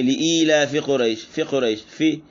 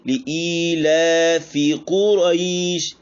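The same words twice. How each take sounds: First: लिईलाफी Quraish with फी clipped short; quick plain लिईलाफी Quraish; half vowel wrong. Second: Slow chanted लिईलाफी Quraish with long फी; higher melodic recitation; full vowel recitation. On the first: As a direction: show the cut-short फी mistake. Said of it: "ये आधा हरकत पढ़ा गया". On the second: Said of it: "ये इसकी पूरी अदायगी है". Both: Shown as a demonstration.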